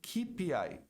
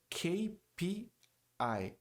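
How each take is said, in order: First: The letters are named the Portuguese way. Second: The letters are named the English way. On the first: The speaker calls it wrong. "Muita gente pronuncia K P I" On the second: The speaker calls it right. "Só que a pronúncia do K é K. Está no alfabeto"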